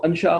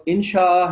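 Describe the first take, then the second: First: انشاء said an-shaa, opening on a short a; mistaken form shown. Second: انشاء said in-shaa, opening on a short i; correct form shown. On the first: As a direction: open انشاء with "an" instead of "in". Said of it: "آپ اس کو انشاء خامخواہ ہی بنا دیں". (انشاء الف پر زبر سے، اَن شاء) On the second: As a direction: open انشاء with "in", then long shaa. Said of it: "وہ لفظ انشاء ہے". (انشاء الف کے نیچے زیر سے، اِن شاء) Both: Shown as a demonstration.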